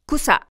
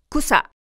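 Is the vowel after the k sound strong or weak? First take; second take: strong; strong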